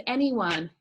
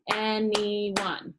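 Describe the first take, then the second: First: Said in the usual way. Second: "anyone" in three separate beats, an-y-one; split into syllables. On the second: Shown as a demonstration. Teacher counts syllables for class, "anyone" broken in three. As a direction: clap out "anyone" beat by beat. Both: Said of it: "your words are broken apart by".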